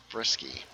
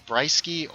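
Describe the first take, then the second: First: "Brisky" said as BRISS-kee; soft Y. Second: "Brisky" said as BRY-skee; hard Y. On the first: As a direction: say "Brisky" with a short I, as in "risk". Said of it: "or the soft Y". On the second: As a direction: say "Brisky" with a long "eye" vowel. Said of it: "Do you like the hard Y". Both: Shown as a demonstration.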